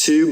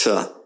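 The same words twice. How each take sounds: First: "to" as too; full vowel. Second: "to" as tuh; weak form. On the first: Teacher showing what not to say, "to" as too. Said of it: "it's not pronounced to". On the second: Teacher showing how it's pronounced, "to" as tuh. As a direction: say "to" with a schwa. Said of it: "but it's pronounced to". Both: Shown as a demonstration.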